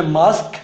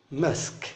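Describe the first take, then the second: First: मास्क with an open "aa" vowel, British style; British pronunciation. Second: मास्क as "mesk", flat American "a"; American pronunciation. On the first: Teacher showing students the British मास्क, long open aa. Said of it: "British English में मास्क". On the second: Teacher showing students the American मास्क, flat "e"-like vowel. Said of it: "American English में उसी को मास्क बोलते हैं". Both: Shown as a demonstration.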